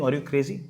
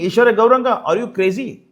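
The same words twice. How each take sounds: First: Low, soft imagined disbelief; doctor's incredulous thought. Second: Loud name, then incredulous question; direct challenge. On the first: Retold or imitated. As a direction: think it aloud quietly, as a puzzled doctor. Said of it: "And the doctor will think". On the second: Real, not acted. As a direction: confront an opponent by name, in real disbelief. Challenges his opponent by name directly.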